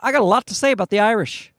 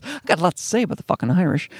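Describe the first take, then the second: First: Said in the usual way. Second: Mildly menacing mock threat; mock ominous. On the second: Comedian mocking his own remark about the Irish, ominous. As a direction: play up the ominous undertone a little. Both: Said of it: "it sounded ominous".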